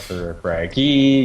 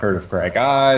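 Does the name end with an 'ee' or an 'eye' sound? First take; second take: ee; eye. First: The name ends with an 'ee' sound. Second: The name ends with an 'eye' sound. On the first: "some people are like" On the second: "Some some people some people want"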